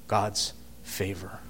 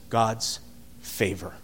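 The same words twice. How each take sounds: No difference in how they are said.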